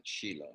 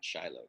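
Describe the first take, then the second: First: Shiloh said as SHEE-loh; long ee in the first syllable of Shiloh; correct pronunciation. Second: Shiloh said as SHY-loh; long i as in "shy" at the start of Shiloh; common mispronunciation. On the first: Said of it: "That's how you a-, actually pronounce it". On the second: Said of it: "not Shiloh". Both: Shown as a demonstration.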